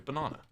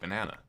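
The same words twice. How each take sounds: First: It is said with a British accent. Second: It is said with an American accent. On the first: "as a British person, I go banana" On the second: "in America, of course, you go banana"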